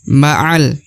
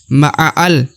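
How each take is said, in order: First: The alif is silent, ma'a joins the lam. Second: The alif is sounded as a separate syllable. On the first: The speaker calls it right. "Tidak dibaca lagi huruf alifnya" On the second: The speaker calls it wrong. "bukan ma'al. Bukan seperti itu ya"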